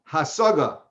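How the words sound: It is said with Ashkenazic Hebrew pronunciation.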